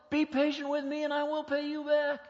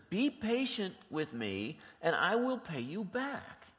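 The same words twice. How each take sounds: First: High, loud, begging voice; desperate pleading. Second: Each word laid out slowly and evenly; slow deliberate reading. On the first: Acted. Servant about to be sold begs his master, frantic pleading. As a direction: plead for your life and family. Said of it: "shaking in fear". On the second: Shown as a demonstration. Preacher reads the servant's words slowly for the congregation, measured. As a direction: read "Be patient with me" slowly so every word lands. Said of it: "Look what the fellow slave says".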